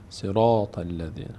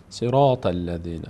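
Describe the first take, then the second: Both takes have the same delivery.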